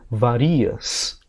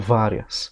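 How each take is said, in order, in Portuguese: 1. A tônica está na segunda sílaba. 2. A tônica está na primeira sílaba. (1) "Se eu escrevo sem acento, varias ... Que é paroxítona também" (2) "tiro do varias e passo para várias. Transferência de sílaba tônica"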